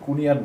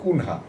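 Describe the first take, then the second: First: The name is said as Kunia, without an h. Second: The name is said as Kunha, with an h. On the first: The speaker calls it right. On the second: The speaker calls it wrong.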